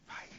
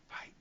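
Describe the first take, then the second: No difference in how they are said.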